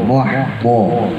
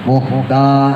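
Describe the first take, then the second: First: The consonant is heavy with puffed-out cheeks. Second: The consonant is a light d with spread lips. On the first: The speaker calls it right. "Kalau bo pipinya gembung" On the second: The speaker calls it wrong. "Kalau mesem merenges, nah itu dal"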